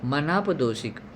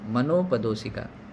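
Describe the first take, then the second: First: The vowel after 'man' is a long 'aa'. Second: The vowel after 'man' is an 'o'. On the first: The speaker calls it wrong. "मनाप नहीं" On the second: The speaker calls it right. "हाँ ये शब्द अच्छा है"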